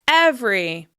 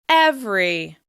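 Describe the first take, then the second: No difference in how they are said.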